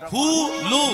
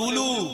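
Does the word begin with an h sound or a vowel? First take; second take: h sound; vowel. First: The word begins with an h sound. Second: The word begins directly with a vowel. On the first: The speaker calls it right. "বইয়েতে লেখা আছে হুলু" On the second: The speaker calls it wrong. "এই কথাটাই ভুল, সম্পূর্ণ ভুল। সব কীর্তনিয়া বলে উলু"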